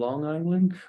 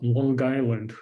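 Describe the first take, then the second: First: It is said in a general, non-local accent. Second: It is said in the local Long Island accent. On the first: Outsiders say it this way. "Oh, you mean Long Island?" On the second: The speaker grew up saying it this way. "I would uh, would always pronounce the word uh, spelled L O N G and then island as Long Island"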